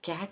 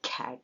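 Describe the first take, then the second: First: The k is said without a puff of air. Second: The k is said with a puff of air. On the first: This is how local speakers say it. The speaker calls it wrong. "ನಾವು ಹೇಳುವಾಗ C A T ಅಂದರೆ ಕ್ಯಾಟ್ ಅಂತೀವಿ" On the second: This is how native speakers say it. The speaker calls it right. "ಅವ್ರು ಹೇಳುವಾಗ ಕ್ಯಾಟ್ ಅಂತಾರೆ"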